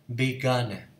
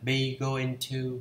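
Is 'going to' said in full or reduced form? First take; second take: reduced; full. First: The words are blended into a short form. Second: The words are said fully and separately. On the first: "thì mình đọc là be gonna" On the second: "hay là be going to"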